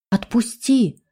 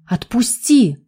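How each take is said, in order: First: Scared cry, strained voice; frightened scream. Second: A touch of a nervous shout; nervous cry. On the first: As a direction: cry out in fear. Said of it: "испуганно закричала Рита". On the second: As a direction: cry out in alarm, mildly. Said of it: "раздался нервный крик девушки". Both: Acted.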